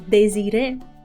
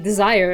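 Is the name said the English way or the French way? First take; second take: French; English. First: It is said with three syllables, French style. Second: It is said like the English word desire. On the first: The speaker calls it right. "pronounce both e's" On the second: The speaker calls it wrong. "my brain is gonna say desire"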